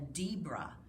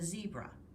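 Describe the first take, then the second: First: The word begins with a D sound. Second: The word begins with a Z sound. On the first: The speaker calls it wrong. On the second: The speaker calls it right.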